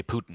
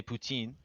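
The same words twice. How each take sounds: First: Putin said PYOO-tin, the English way; Western Canadian Putin. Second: Put-on poutine said the French way, poo-TEEN with a nasal end. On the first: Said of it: "in Western, we say". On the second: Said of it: "en français, we say". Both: Shown as a demonstration.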